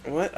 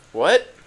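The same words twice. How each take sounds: First: Said in the usual way. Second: Sharp high loud "What?" with a rising end; shocked shout. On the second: Acted. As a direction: snap "What?" out in disbelief. Olivia reacts in shock.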